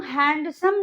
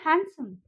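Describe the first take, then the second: First: हैंडसम with a full d, "hand-sum"; mispronounced handsome. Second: Said in the usual way. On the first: Shown as a demonstration. Teacher showing what not to say, हैंडसम with d sounded. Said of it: "नहीं बोलते हैं". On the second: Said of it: "हम उसको बोलते हैं".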